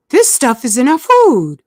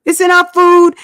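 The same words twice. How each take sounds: First: Said in the usual way. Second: It's in our food, food hit higher and louder; stress on food. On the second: Real, not acted. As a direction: drive home food.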